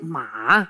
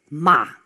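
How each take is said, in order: First: The pitch is very low and deep. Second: The pitch drops steeply, like an angry word. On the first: It means horse. "De derde is een heel diepe. Die moet je voelen in je keel" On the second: It means to curse. "wat wij doen als we boos zijn. Dus die gaat heel steil naar beneden"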